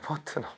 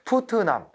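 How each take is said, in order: First: The name is said with English-like reduced vowels. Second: The name is read literally, without English-like vowels. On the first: The speaker calls it right. "원래 이 사람 저작도 그렇고요" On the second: The speaker calls it wrong. "영어 발음도 그대로 읽습니다"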